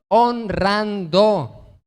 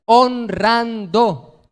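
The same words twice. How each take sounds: First: Honrando, syllables held long and emphatic; drawn-out answer. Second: Honrando, each syllable held long; drawn-out answer. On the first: Preacher drives the point home to the church, slow and deliberate. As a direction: stretch Honrando out very slowly. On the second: Preacher answers his own question to the congregation, slow and drawn out. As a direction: stretch Honrando out very slowly, a bit louder. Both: Acted.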